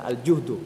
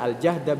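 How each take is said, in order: First: The vowel after the j is u. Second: The vowel after the j is a. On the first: "bisa dibaca al-juhdu" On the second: "Bisa dibaca al-jahda"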